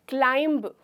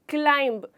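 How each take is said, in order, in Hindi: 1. शब्द के अंत में b की आवाज़ सुनाई देती है। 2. शब्द के अंत में b की आवाज़ सुनाई देती है।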